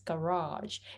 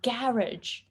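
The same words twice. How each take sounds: First: It is said in the American way. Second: It is said in the British way. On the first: This is the American pronunciation. "So in American English, it's garage" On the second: This is how the British-style speaker says it. "you say ga garage"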